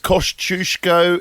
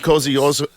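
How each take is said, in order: First: The name is said the newer way. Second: The name is said the older, familiar way.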